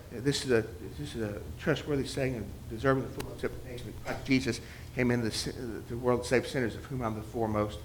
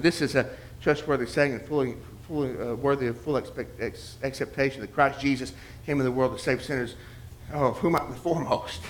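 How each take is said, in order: First: Soft, fast muttered verse; muttered recitation. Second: Murmured recitation. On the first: Memorizing a verse in the grocery line, muttered fast. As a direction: run the verse under your breath quickly. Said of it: "Imagine yourself". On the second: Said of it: "at the grocery store". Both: Retold or imitated.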